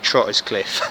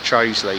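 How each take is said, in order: First: The name is said as spelled, ending in 'cliff'. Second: The name is shortened, ending in 'ly'. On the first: The speaker calls it wrong. "as I first called it" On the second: The speaker calls it right. "it's pronounced Troseley"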